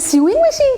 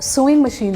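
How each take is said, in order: First: Sewing begins with a 'syoo' sound. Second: Sewing begins with an 'so' sound. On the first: The speaker calls it wrong. "याद रखना वो गलत बोल रहा है" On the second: The speaker calls it right. "आप सही बोल रहे हो"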